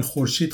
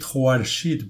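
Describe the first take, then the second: First: Said in the usual way. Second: خورشید said as "khwarshid"; Old Persian pronunciation. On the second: Shown as a demonstration. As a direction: give خورشید a w-glide after kh, then "ar". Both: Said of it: "تلفظش در فارسی قدیم متفاوت بوده".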